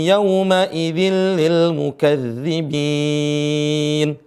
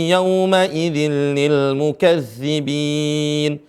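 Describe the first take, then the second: The two takes are said the same way.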